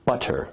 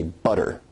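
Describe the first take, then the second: First: "butter" with a fully released, crisp t stop; Received Pronunciation full t. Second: "butter" with the tt as a quick d-like flick; North American tap. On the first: Teacher comparing with received pronunciation, "butter" with a full t stop. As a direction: say "butter" the British RP way, a true t in the middle. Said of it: "that involves a full t stop". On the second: Teacher comparing two accents, "butter" with a North American tapped tt. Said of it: "So in North American English". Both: Shown as a demonstration.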